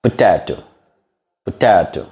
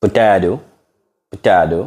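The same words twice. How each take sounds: First: British Potato with a crisp T; demonstrating British pronunciation; British accent. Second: American Potato with the T as a D; demonstrating American pronunciation; American accent. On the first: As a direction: say Potato the British way, each T sounded. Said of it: "British accent". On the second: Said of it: "American accent". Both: Shown as a demonstration.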